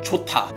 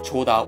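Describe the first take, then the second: First: The second syllable starts with a strong t sound. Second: The second syllable starts with a soft d sound. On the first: The speaker calls it right. "T sound, but more stronger" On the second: The speaker calls it wrong. "instead of"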